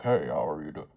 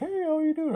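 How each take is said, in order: First: It is said in a put-on male voice. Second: It is said in a put-on female voice.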